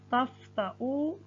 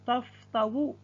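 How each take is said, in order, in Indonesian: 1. Konsonan tengahnya adalah hamzah. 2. Konsonan tengahnya adalah bunyi w. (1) "yang dibaca hamzahnya" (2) "tidak dibaca taftawu"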